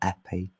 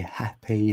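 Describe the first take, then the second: First: The H at the start is dropped. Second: The H at the start is pronounced. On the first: "instead of happy" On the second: "I'll try and say happy like that"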